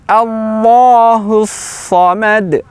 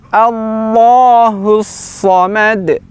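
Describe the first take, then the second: The two takes are said the same way.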